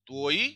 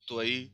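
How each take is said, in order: First: त्वई as "tvoy", stressed o gliding to y; single rising syllable, त्वई said like tvoy; one-syllable form. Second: त्वई as "tva-EE", stress on ई; short a then full ई in त्वई; two-syllable form. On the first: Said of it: "यहाँ पे ये क्रातकय है". (त्वई एक syllable, "त्वोय") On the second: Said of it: "यहाँ पे normal ये soft ही है". (त्वई दो सिलेबल, ज़ोर ई पर) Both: Shown as a demonstration.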